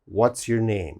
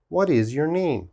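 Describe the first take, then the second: First: "What is" is contracted to one syllable. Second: Both words "what is" are said separately. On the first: It sounds more common and adult. The speaker calls it right. "we're going to change it to what's. ... this is more common" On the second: It sounds childish. The speaker calls it wrong. "This sounds childish"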